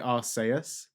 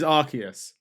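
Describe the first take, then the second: First: The name is said with a Japanese pronunciation. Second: The name is said with an English pronunciation. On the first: "So in in Japanese they say Arceus" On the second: "Arceus in English. So it is Arceus"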